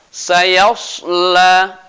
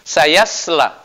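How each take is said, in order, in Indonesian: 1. Bunyi s itu s yang berat dan emfatis. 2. Bunyi s itu s yang ringan dan biasa. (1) "Jadi harus kita baca sayasla" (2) "Jangan sampai berbunyi eh, seperti huruf sin"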